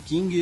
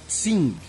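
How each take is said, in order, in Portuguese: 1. A palavra começa com som de k. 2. A palavra começa com som de ts. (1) "a gente acaba pronunciando King" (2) "a pronúncia seria Tsing"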